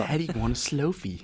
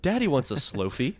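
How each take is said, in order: First: Softer echo in a put-on voice; mimicking the customer. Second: Higher mock-needy voice; creepy wheedling. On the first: Friend echoes the Apple store bit, mimicking. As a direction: parrot the silly demand back, quieter. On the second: Joker begging for the new phone, mock wheedling. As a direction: put on a suggestive, wanting tone. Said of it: "if you say it like that".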